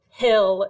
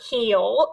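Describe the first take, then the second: First: The word is said without a Southern drawl. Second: The word is said with a Southern drawl. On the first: The speaker calls it right. "you have to pronounce hill like hill" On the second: The speaker calls it wrong. "not heel"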